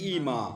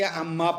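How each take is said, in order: First: It begins with a long vowel and single m. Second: It begins with a short a and double m. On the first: "इम्मा का पहला मीम या में तब्दील किया जाएगा" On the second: "इम्मा के हमजे को फतहा दिया जाएगा तो क्या पढ़ेंगे"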